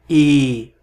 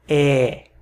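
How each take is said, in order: First: The vowel is pronounced closed, like ê. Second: The vowel is pronounced open, like é. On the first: The speaker calls it wrong. "nunca som de E" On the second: The speaker calls it right. "Sempre é lida como um E aberto"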